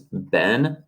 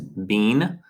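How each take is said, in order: First: The word is said with an American pronunciation. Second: The word is said with a British pronunciation. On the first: "American pronunciation is been" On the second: "British English is been"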